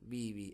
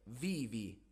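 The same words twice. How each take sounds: First: The first consonant sounds close to a b. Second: The first consonant is a clear v sound. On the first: The speaker calls it wrong. "per la gente che parla spagnolo non è vivi" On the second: The speaker calls it right. "è vivi, v, v"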